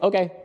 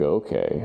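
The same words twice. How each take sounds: First: It is said short, punchy and fast. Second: It is said slow, low and sultry.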